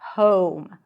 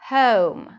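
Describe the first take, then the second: First: The vowel starts further back with rounded lips. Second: The vowel starts with a schwa sound. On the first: "the O as we pronounce it in American English" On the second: "In British English, the first sound is actually a schwa"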